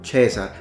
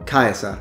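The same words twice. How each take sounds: First: The first vowel is a single plain vowel. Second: The first vowel is a full diphthong. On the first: "instead of Caesar" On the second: "the full-on diptong ae for Caesar"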